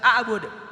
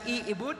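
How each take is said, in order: First: The word begins with an a vowel. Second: The word begins with an i vowel. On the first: "dibaca a'bud" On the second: "dibaca i'bud"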